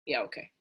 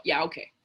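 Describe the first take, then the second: First: Much lower, softer "Yeah, okay." with "yeah" falling away; muttered yeah okay. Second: Dry, doubting "Yeah, okay." with the weight on "yeah"; skeptical yeah okay. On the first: Speaker repeats the brush-off to the audience, quietly muttered. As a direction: mutter "Yeah, okay." under your breath, unconvinced. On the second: Speaker brushing off people's excuses, skeptical. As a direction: say "Yeah, okay." like you don't buy it. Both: Pretend.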